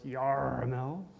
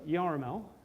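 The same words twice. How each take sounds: First: It is said in a pirate voice. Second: It is said in a normal voice.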